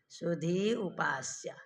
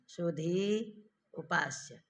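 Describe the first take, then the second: First: The two words run together quickly without pause. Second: There is a pause between the two words.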